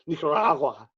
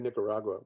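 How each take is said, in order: First: It is said with a Spanish-style pronunciation. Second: It is said with a plain English pronunciation. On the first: This is how public radio says it. The speaker calls it right. "We say Nicaragua" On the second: This is how public radio does not say it. The speaker calls it wrong. "We don't say Nicaragua"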